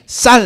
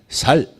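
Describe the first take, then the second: First: The first consonant is a tense s sound. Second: The first consonant is a plain s sound. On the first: The speaker calls it right. "경상도 분들에게 쌀 하면" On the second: The speaker calls it wrong. "쌀을 못하시고 살 이렇게 나와요"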